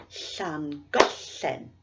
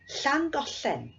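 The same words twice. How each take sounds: First: Llangollen very slow, the middle syllable goll weighted; stress on goll. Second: Said in the usual way. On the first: Shown as a demonstration. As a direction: draw out Llangollen and hit goll. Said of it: "we'll clap on the stress". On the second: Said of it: "I'll say the place name".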